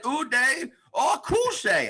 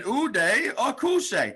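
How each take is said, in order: First: Higher and very slow Uday Akuse; slower comic impression. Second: Slow comic impression. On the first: Comic imitating a man repeating his line even slower. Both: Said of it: "I said".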